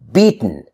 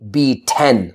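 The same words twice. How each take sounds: First: The T moves straight into N, no vowel. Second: A clear T and vowel come before the N. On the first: The speaker calls it right. "I'm moving from T to N without any sound in between" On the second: The speaker calls it wrong. "We don't pronounce the T and the vowel E, beaten, like that"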